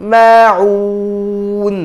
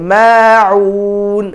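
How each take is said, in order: No difference in how they are said.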